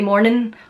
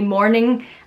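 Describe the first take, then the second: First: The word ends without the g sound. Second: The word ends with a full ng sound. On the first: "drop the G in words. ... I would say morning" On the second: "I wouldn't say morning"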